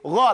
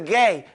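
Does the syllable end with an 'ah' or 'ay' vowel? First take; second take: ah; ay. First: The vowel sounds like 'ah'. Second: The vowel sounds like 'ay'. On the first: The speaker calls it right. "It's Gha, like gum and got and go" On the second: The speaker calls it wrong.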